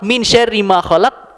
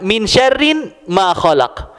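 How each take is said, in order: First: The word syarri ends without an n sound. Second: The word syarri ends with an added n sound. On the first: From the evil of all that God created. The speaker calls it right. "dari keburukan, segala keburukan yang Allah ciptakan" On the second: From evil which God did not create. The speaker calls it wrong. "Kalau diselewengkan"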